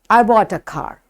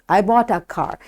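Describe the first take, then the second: First: The word 'a' is quick and unstressed. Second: The word 'a' is quick and unstressed.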